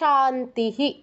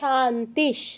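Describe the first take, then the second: First: The word ends with an echoed 'hi' sound. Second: The word ends with a short 'sh' sound. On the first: It comes at the end of the line. "শেষেরটা কি বলছি শান্তিহি" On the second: Another word starting with 'sh' follows it. "প্রথমটা বলছি শান্তিশ"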